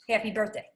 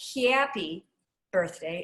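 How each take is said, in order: First: The first vowel in happy is short and tight. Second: The first vowel in happy glides. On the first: The speaker calls it right. "It's just happy" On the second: The speaker calls it wrong. "It's not happy birthday"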